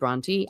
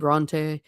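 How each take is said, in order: First: The name is said with an English-sounding pronunciation. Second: The name is said with a French-sounding pronunciation. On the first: "maybe the English people said Bronte" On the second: "kind of a French-sounding name"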